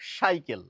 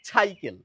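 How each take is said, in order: First: The word begins with an sh sound. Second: The word begins with a chh sound. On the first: "দন্ত স এর উচ্চারণ না করে তালব্য স এর উচ্চারণ করেন" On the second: "ছ লাগিয়ে উচ্চারণ করেন"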